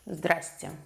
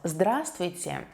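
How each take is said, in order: First: The greeting is said shortened, consonants dropped. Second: The greeting is said in full, all syllables. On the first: An informal greeting. "So you just pronounce it" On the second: A formal greeting. "there are four consonants in a row in this word"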